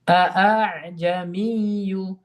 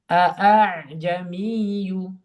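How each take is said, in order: Both takes have the same delivery.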